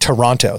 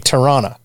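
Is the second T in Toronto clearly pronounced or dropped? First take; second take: clear; dropped. First: The second T is clearly pronounced. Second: The second T is dropped. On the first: An outsider says it this way. The speaker calls it wrong. "did not say the word Toronto correctly. Because they were saying Toronto" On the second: A local says it this way. The speaker calls it right. "you're from Toronto, you would say Toronto"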